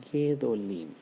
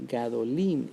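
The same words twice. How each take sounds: First: Gedolim said with the first syllable reduced to a short "ge"; correct form gedolim. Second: Gadolim said with a clear open "ga" first syllable and a loud stress on "lim"; wrong form gadolim. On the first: Teacher giving students the right Hebrew form, gedolim with short "ge". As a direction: clip the first vowel, "ge-do-LIM". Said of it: "nosotros decimos". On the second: Teacher showing students the form we don't say, gadolim with full "ga". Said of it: "en vez de decir gadolim". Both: Shown as a demonstration.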